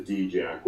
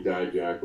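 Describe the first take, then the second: First: D-Jack said "DEE-jack"; contrasted pronunciation. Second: Dijak said "DIE-jack"; contrasted pronunciation. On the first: Wrestler giving the other form of his surname, DEE-jack. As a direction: say D-Jack starting like the letter D. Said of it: "Most people call me Dijak". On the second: Wrestler telling what most people call him, DIE-jack. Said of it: "as opposed to D-Jack". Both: Shown as a demonstration.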